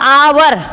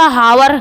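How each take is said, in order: First: The word starts with a vowel, no h. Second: The word starts with a pronounced h sound. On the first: The speaker calls it right. "एच silent" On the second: The speaker calls it wrong. "हावर तो गलत हो जाएगा"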